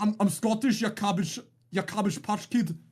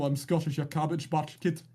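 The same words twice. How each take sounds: First: Put-on second try at a Scottish accent, pitched a little up; Scottish trial accent. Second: Put-on a first rough go at a Scottish accent; tryout Scottish accent. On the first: Streamer asks chat to rate his Scottish accent, playful attempt. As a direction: lean harder into the Scottish accent. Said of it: "rate my Scottish trial accent". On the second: Streamer trying a Scottish accent for chat, rough Scottish accent. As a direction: try out a Scottish accent, half-hearted. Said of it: "my tryout Scottish accent comes out".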